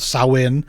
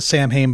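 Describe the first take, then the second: First: The name is said the traditional, original way. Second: The name is said the common, anglicized way. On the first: This is the name's traditional form. "I think it's traditionally called Samhain" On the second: This is how people often say it today. "we somehow sometimes pronounce it Samhain"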